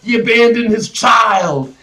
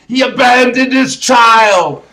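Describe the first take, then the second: First: Said in the usual way. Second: Shouted, louder and slower, stressing abandoned; outraged shout. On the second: Real, not acted. Ranting about the movie's father, shouting it out. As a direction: yell it in disbelief.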